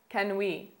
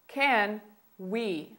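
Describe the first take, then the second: First: It is said at a faster pace. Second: It is said at a slower pace.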